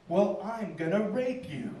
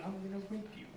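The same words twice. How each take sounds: First: Drawn-out, deliberate comic comeback; slow mock threat. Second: Much softer throwaway comeback; quiet mock threat. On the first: Comic raising the stakes on his attacker, slow mock threat. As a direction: stretch out the threat for the punchline. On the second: Shown as a demonstration. Comic advising the audience what to say back, quiet mock threat. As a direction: drop the volume right down for the threat.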